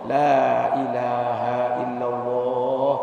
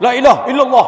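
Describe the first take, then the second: First: It is said slowly and calmly. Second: It is said quickly and hurriedly.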